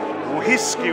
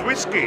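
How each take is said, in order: First: The word starts with a breathy h sound. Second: The word starts without an h sound. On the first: "with a little bit of joy, you can say whiskey with a little H" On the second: "the word whiskey in Welsh is whiskey"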